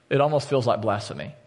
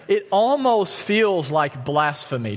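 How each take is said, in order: First: Said in the usual way. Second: Slow, higher emphasis landing on "almost"; emphatic. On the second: Real, not acted. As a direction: stress on "almost", pitched high and drawn out. Preacher reacts to his mock song.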